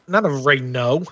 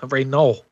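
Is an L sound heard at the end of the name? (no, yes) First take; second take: no; yes. First: The name ends without an L sound. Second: The name ends with an L sound. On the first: The speaker calls it wrong. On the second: The speaker calls it right.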